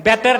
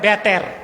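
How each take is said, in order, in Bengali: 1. শব্দটি 'b' ধ্বনি দিয়ে শুরু হয়। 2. শব্দটি 'b' ধ্বনি দিয়ে শুরু হয়।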